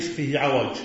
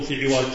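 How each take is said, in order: First: عوج said 'awaj, a after ع; fatha on ع. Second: عوج said 'iwaj, i after ع; kasra on ع. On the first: Teacher models the word for a bent skewer, 'awaj for عوج. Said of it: "تقول". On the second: Teacher shows what not to say of objects, 'iwaj for عوج. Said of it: "ما تقول". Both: Shown as a demonstration.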